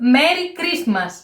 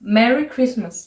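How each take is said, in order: First: It is said with a Greek accent. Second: It is said with an English accent.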